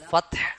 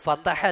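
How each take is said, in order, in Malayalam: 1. "t"യും "h"യും യാതൊരു സ്വരാക്ഷരവുമില്ലാതെയാണ് പറയുന്നത്. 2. "t"യെയും "h"യെയും വേർതിരിക്കുന്ന ഒരു അധിക സ്വരാക്ഷരമുണ്ട്. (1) "ഫത്ഹ് എന്നാണ്" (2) "വൽ ഫതഹ അല്ല"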